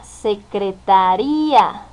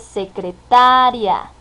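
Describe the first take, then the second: First: The stress falls on the syllable ría. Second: The stress falls on the syllable ta. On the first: It has a different meaning. "o la acentuación desde ta hasta ría" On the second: A woman who does office secretarial work. "transferir la entonación desde ta"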